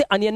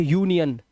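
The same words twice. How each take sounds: First: अनियन gesprochen mit kurzem a am Anfang; wrong reading anion. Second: यूनियन gesprochen mit langem yu am Anfang; correct reading union. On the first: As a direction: sag अनियन als an-yan, die falsche Lesart. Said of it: "अनियन नहीं पढ़ेंगे". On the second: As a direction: sag यूनियन als yu-nyan, die richtige Lesart. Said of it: "इसे यूनियन". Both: Shown as a demonstration.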